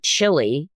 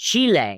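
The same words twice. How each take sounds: First: The first syllable sounds like chilly. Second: The first syllable sounds like chee. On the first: This is the usual American way of saying it. The speaker calls it wrong. "It's not Chile, and they don't grow chilies there" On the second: This is how the country's own name is said. The speaker calls it right. "and it's Chile"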